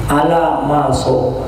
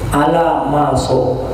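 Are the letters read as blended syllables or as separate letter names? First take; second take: blended; blended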